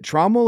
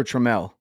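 First: "Trammell" stressed on the first syllable, with an open "ah". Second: "Trammell" stressed on the last syllable, like truh-MELL; second-syllable stress. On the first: Host checking guest's surname, "Trammell" said TRAH-mul. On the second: Host checking guest's surname, "Trammell" said truh-MELL. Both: Shown as a demonstration. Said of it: "Is it Trammell or Trammell?".

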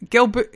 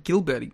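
First: Gelber-, hard G and an e, said as kɛlbɛ; starts the name as Gelber- before correcting; name mispronounced. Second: Gilberti, with an i, said as kɪlbɛdi; corrected name. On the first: Host stumbles over the name, saying Gelber- first. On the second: Host corrects himself, saying Gilberti carefully. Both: Real, not acted. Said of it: "Gilberti is what I'm gonna call him".

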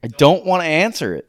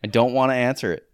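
First: Louder, higher and insistent; loud refusal. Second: Said in the usual way. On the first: Real, not acted. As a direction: shout the refusal, fed up. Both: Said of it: "I'm not gonna answer this question".

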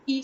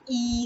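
First: "e" short and quick, as in it; short vowel. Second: "e" stretched into a long ee; long vowel. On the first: Listing English sounds for learners, short vowel. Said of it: "You have the e sound". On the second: Listing English sounds for learners, long ee. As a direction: sound out "e" slowly, as in eat. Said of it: "you have the e sound". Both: Shown as a demonstration.

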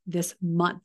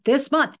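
First: Said in the usual way. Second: This month, said again higher and louder; stressed second this month,; emphatic repeat. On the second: Shown as a demonstration. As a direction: push this month, up in pitch and volume.

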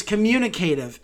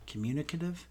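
First: Communicative with a full "kay" before "tive", falling at the end; louder, decided communicative, ending "kay-tiv"; corrected pronunciation. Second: Communicative with a short, unstressed "cuh" before "tive", rising like a question; softer, questioning communicative, ending "kuh-tiv"; unsure pronunciation. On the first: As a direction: settle firmly on com-MYOO-nuh-KAY-tive for communicative. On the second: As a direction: query the word communicative, saying it com-MYOO-nuh-cuh-tive. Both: Real, not acted. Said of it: "No, it's communicative".

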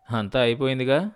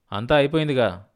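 First: "అయిపోయిందిగా" lifting at the end; resigned rising remark. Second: Firmer retort with a falling end; irritated finality. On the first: Husband answers wife that all is lost, resigned rising tone. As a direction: let "అయిపోయిందిగా" rise, as if nothing is left. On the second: Husband reminds wife it is all over, irritated. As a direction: throw it back at her, testy and final. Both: A narrator's reading.

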